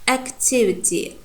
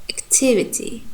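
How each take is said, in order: Both takes have the same delivery.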